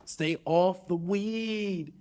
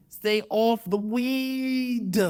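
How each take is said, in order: First: Slow pundit scolding. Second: Drawn-out pundit scold. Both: Retold or imitated. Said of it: "my terrible Stephen A. Smith impression".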